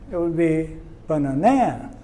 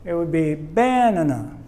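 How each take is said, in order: First: The stress is on the third syllable. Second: The stress is on the first syllable. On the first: "If we stress this one" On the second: "now if we stress this one"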